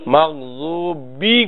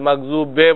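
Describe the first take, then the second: First: The word ends with an 'i' vowel. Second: The word ends with an 'e' vowel. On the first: The speaker calls it right. "মাগযুবি কইতে হবে।" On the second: The speaker calls it wrong. "মাগযুবে বলা যাবে না।"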